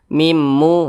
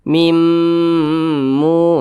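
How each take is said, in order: First: The nasal m sound is cut short. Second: The nasal m sound is held long. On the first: The speaker calls it wrong. "itu kurang dengungnya" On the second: The speaker calls it right. "kita panjangkan sejenak"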